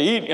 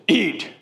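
First: A higher blunt one-word order; imitating a gruff preacher offering food; gruff command. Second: Plain. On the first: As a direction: bark the single word like a command. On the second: Retold or imitated. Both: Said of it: "Doctor Summerall don't say".

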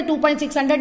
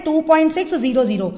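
First: Reads "two point six हंड्रेड" with the zeros as "हंड्रेड", a quick wrong example; wrong reading. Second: "two point six ज़ीरो ज़ीरो" with each zero said as "ज़ीरो"; correct reading. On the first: Teacher shows students the wrong way to read 2.600, quick wrong reading. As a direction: rattle off "two point six हंड्रेड" as the mistake to avoid. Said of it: "इसे ऐसे नहीं पढ़ते". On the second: Teacher gives students the right reading after the wrong one, clear correct reading. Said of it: "क्या पढ़ते हैं?". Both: Shown as a demonstration.

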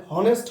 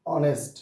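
First: হনেস্ট with an audible H at the start; wrong H sounded. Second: অনেস্ট with no H, starting on the O; silent H. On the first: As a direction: pronounce the H in হনেস্ট, as a mistake. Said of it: "হনেস্ট হবে না". (হনেস্ট, শুরুতে H উচ্চারণ করে) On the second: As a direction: open অনেস্ট straight on the vowel. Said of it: "উচ্চারণ হলো". (অনেস্ট, H উহ্য রেখে ও দিয়ে শুরু) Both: Shown as a demonstration.

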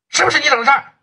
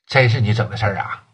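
First: High, pressing challenge with 不 hit hard; angry demand. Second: Low, dropped, disbelieving with weight on 真; stunned disbelief. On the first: Boss demanding the truth from his partner, angry. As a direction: demand it sharply, almost yelling. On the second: Boss realizing his partner really did it, low disbelief. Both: Acted.

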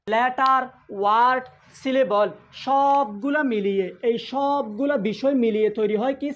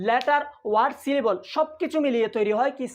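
First: Slow emphatic teaching. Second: Said in the usual way. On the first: Shown as a demonstration. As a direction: stretch each term out for the class. Teacher drills key line slowly. (ধীরে, টেনে টেনে জোর দিয়ে বলা)

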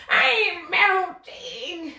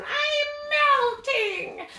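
First: Very slow fading wail; melting witch. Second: High, very slow witch wail; melting witch. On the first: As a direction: let the witch melt away slowly. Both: Shown as a demonstration. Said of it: "slow melt on down like we're the witch".

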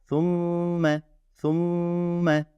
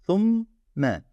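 First: Thumme with the mm held long and joined; held nasal. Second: Said in the usual way. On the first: Shown as a demonstration. Teacher shows students the joined, held mm in Thumme. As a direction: hold the mm of Thumme as one sound. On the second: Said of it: "Ama ne yapıyorum bakın burada".

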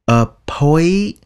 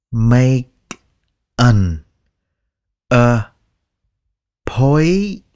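First: Appointment said quickly with both t sounds dropped; native pronunciation. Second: Each word slow and separate, appointment drawn out; slow dictionary reading. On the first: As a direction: say appointment like a native, no t in the middle or at the end. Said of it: "người bản xứ người ta sẽ nói là". (nói appointment như người bản xứ, bỏ âm t) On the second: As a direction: read it slowly word by word like a dictionary. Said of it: "Cái đó là đọc chậm theo từ điển nha". (đọc chậm từng chữ như từ điển) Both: Shown as a demonstration.

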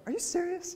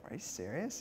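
First: Shrill, incredulous squeak of a driver cut off; exasperated disbelief. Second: Softer, hushed private disbelief; quietly taken aback, as if reading it to yourself; mild disbelief. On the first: Preacher mimicking an angry driver's outburst, much higher squeak. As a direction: pitch shoots way up in outraged disbelief. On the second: Preacher recalling reading the verse, softer mild disbelief. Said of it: "I was like". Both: Retold or imitated.

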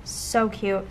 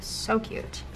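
First: Said in the usual way. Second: Soft unvoiced echo; hushed second so cute; whispered repeat. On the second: Real, not acted.

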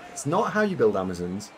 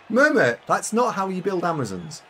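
First: Said in the usual way. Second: Loud, high, teasing tell-off; mock scolding. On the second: Streamer teasing a chatter about team building. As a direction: scold them in jest.

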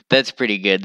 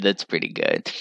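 First: Said in the usual way. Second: Quiet low echo; quiet low repeat. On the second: Shown as a demonstration. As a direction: drop it lower and softer.

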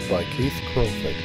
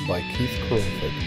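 Both takes have the same delivery.

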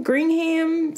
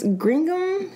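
First: Gringham with a full "ham" ending; unsure pronunciation. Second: Gringham with a reduced "gum" ending; unsure pronunciation. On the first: Puzzling over the fabric pattern's name, Gringham tried as "green-ham". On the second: Puzzling over the fabric pattern's name, Gringham tried as "green-gum". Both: Real, not acted. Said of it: "what do they call it?".

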